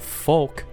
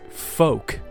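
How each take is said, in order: First: The L sound is pronounced before the K. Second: The L is silent, with no L sound. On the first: The speaker calls it wrong. "I pronounce it like folk" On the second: The speaker calls it right. "it's folk"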